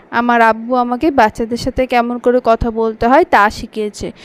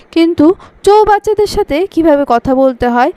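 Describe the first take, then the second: First: Said in the usual way. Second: চৌবাচ্চাদের lifted high and a bit louder; stress on চৌবাচ্চাদের. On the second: Acted. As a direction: land the insult on চৌবাচ্চাদের with a teasing rise. Punchline insult, word swap.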